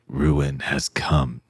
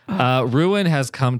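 First: The words are said in a spooky, dramatic voice. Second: The words are read in a plain, ordinary voice.

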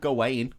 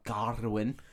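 First: The name does not sound like 'Arwen' with G. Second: The name sounds like 'Arwen' with a G. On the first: The speaker calls it right. "which is how I always knew it" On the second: The speaker calls it wrong. "Some people call him Garwin. ... Just bashed a G on it"

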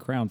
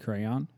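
First: The word is said as one syllable. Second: The word is said as two syllables. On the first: "I like to just say crown" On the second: "It's two syllables"

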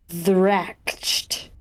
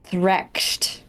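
First: The opening th sound is voiced. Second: The opening th sound is unvoiced. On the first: The speaker calls it wrong. "It could be voiced. The TH could be voiced, but I don't think so" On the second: The speaker calls it right. "I think it's gotta be unvoiced"

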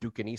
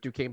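First: It is sounded out the way it is spelled. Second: It is said with its usual pronunciation. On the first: "but it's spelled Duquesne" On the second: "You say it Duquesne"

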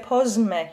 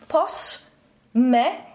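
First: The S is voiced, close to a Z. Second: The S is unvoiced, like a plain S.

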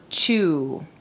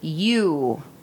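First: The word begins with a 'ch' sound. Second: The word begins with a plain 'y' sound. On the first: The speaker calls it wrong. "not chew" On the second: The speaker calls it right. "it's called you"

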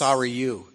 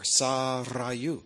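First: The R is a plain, unrolled R. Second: The R is rolled. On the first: The speaker calls it wrong. "Mackenzie can't roll an R to save his life" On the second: The speaker calls it right. "It has a rolled R in it"

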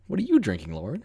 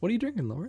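First: It is asked in a put-on concerned way. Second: It is asked in an indifferent, offhand way.

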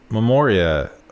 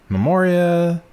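First: It is said in his normal voice. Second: It is said in a Princess Bride impression.

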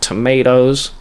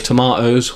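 First: It is said with an American accent. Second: It is said with a British accent.

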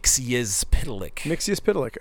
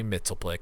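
First: The name is said in a longer, fuller form. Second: The name is said in a short, simplified form. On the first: "the actual correct pronunciation" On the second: "I like to say Mitzelplick because, like, that's what I just have always said"

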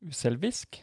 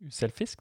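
First: The middle consonant is a v sound. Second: The middle consonant is an f sound. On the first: The speaker calls it right. "men V" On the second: The speaker calls it wrong. "hvis du bytter ut den F-en jeg hører inn der"

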